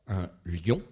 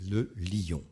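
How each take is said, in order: First: "lion" squeezed into one syllable, lyon; contracted lion. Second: "lion" split into two syllables, li-on; "lion" opened into li-on; stretched lion. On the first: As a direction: say "lion" as a single glide, synérèse. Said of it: "on dit faire la synérèse, contractée". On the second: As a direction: say "lion" drawn out in two beats, diérèse. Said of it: "ou de manière étendue". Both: Shown as a demonstration.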